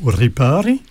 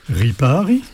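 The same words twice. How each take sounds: First: The R is rolled with the tongue. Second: The R is made in the throat. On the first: "avec la langue sur le palais" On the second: "avec la gorge"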